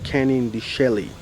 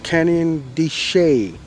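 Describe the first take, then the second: First: The last word sounds like 'Shelley'. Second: The last word does not sound like 'Shelley'. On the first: The speaker calls it wrong. "not Canyon de Chelly" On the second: The speaker calls it right. "It's called Canyon de Chelly"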